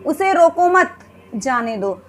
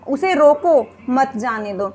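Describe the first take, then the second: First: The pause comes after the word मत. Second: The pause comes after the word रोको. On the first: Do not stop him; let him go. "एक वाक्य में तो हम मत के बाद विराम ले रहे हैं" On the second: Stop him; do not let him go. "एक वाक्य में हम रोको के बाद विराम ले रहे हैं"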